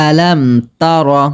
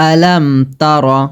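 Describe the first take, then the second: Both takes have the same delivery.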